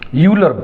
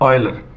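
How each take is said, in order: First: The name begins with a 'yoo' sound. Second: The name begins with an 'oy' sound. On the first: The speaker calls it wrong. "प्राय इसका pronunciation लोग गलत करते हैं, यूलर पढ़ते हैं लोग" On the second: The speaker calls it right. "इसका प्रोनाउंसिएशन करिए ऑयलर"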